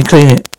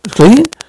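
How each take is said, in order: First: Said in the usual way. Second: Sharp high rising echo of the words; surprised question. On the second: Acted. Told to clean the money, surprised high rise. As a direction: throw the words back in disbelief.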